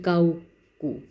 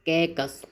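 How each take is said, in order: First: It is said as two parts, 'kau ku'. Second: It is said as one word, 'kaikas'. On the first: "अब हम इसको पढ़ेंगे काऊ कू" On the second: "हम इसको ऐसे नहीं पढ़ेंगे"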